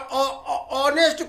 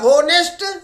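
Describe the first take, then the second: First: The h is silent at the start. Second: The h is sounded at the start. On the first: "ऑनेस्ट को" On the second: "लिखता है होनेस्ट"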